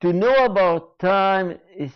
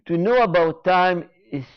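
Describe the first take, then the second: No difference in how they are said.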